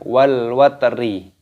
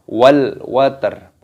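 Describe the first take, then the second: First: The last word ends with an added i vowel. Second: The last word ends on a bare consonant. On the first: The reciter reads on without stopping. The speaker calls it wrong. "bukan wal watri" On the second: The reciter stops at a pause here. The speaker calls it right. "ketika berhenti waqaf maka cara membacanya wal watr"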